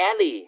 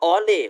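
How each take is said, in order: First: "alley" said as "AL-ee"; correct pronunciation of alley. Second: "alley" wrongly said as "aw-lay"; mispronounced alley. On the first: Teacher showing students the proper reading, "alley" pronounced "AL-ee". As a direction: say "alley" with a short a and -ee ending. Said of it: "อ่านว่า alley". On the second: Teacher warning students off a misreading, "alley" mispronounced as "aw-lay". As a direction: say "alley" with an aw first vowel and -lay ending. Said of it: "ไม่อ่านว่า alley". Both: Shown as a demonstration.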